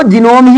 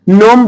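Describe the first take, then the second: First: "जिनोम" with the G sounded as J; two-syllable "जिनोम"; mispronunciation. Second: "नोम" starting straight on N; no G before the N in "नोम"; silent G. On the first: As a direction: add "ji" before "nom" in "जिनोम". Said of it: "जिनको नहीं पता रहेगा". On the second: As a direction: say "नोम" as one syllable. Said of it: "इसको नोम बोलेंगे". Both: Shown as a demonstration.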